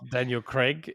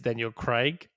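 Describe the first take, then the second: First: Craig is said with an American pronunciation. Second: Craig is said with a non-American pronunciation. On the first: The speaker calls it wrong. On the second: The speaker calls it right.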